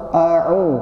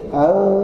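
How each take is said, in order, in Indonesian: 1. Kedua vokal terpisah dengan jelas. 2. Kedua vokal menyatu jadi satu. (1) "harusnya a'u" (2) "nggak jelas"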